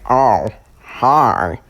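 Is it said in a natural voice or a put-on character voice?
character voice. It is said in a put-on Baldy voice.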